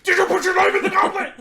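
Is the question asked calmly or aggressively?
aggressively. The question is shouted in an aggressive way.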